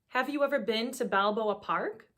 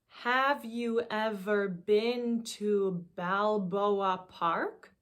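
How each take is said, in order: First: It is said at normal speed. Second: It is said slowly.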